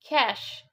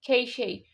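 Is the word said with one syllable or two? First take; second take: one; two. First: It is said as one syllable, like 'cash'. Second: It is said with two syllables, ending in 'shee'. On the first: The speaker calls it right. "It's cash. It's just cash" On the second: The speaker calls it wrong. "it's not even keishi"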